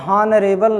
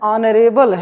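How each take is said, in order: First: The word starts with an audible h sound. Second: The word starts with a vowel, no h. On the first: The speaker calls it wrong. "इसको आप हॉनरेबल नहीं कहेंगे" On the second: The speaker calls it right. "आ से"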